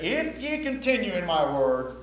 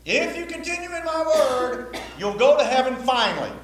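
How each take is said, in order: First: Said in the usual way. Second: Mock the wrong reading with a silly voice; mock false-gospel voice. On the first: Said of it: "And then he said".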